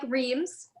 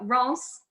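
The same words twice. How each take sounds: First: It is said the way the spelling looks. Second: It is said to rhyme with France. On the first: The speaker calls it wrong. "looks like Reims" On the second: The speaker calls it right. "Reims is the correct pronunciation"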